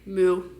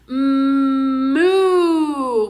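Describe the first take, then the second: First: The word is said plainly with little energy. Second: The word is drawn out with big, exaggerated energy. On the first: The speaker calls it wrong. "We're not just saying moo" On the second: The speaker calls it right. "we're really showing them moo"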